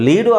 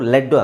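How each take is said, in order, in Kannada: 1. ಇದು ದೀರ್ಘ 'ee' ಶಬ್ದ. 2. ಇದು ಹ್ರಸ್ವ 'eh' ಶಬ್ದ. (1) "ಲೀಡು ಆಗ್ಬೋದು" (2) "ಲೆಡ್ಡು ಆಗ್ಬೋದು"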